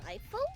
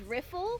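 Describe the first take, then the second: First: The first vowel is the long 'eye' sound. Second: The first vowel is the short 'ih' sound. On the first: The speaker calls it right. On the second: The speaker calls it wrong.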